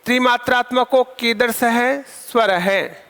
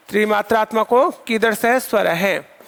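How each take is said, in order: First: Slow, careful dictation for students. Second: Said in the usual way. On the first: Shown as a demonstration. Teacher repeats the question slowly for students. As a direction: spell it out slowly for the class to write. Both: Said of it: "दोबारा से आप समझ लीजिए".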